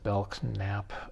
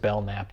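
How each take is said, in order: First: The K in the middle is pronounced. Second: The K in the middle is silent. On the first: This is how an expert says it. "he had pronounced it Belknap" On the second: This is how the speaker would naturally say it. "Seems like just Belknap to me"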